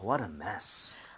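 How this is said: It is said with strong exclamatory feeling.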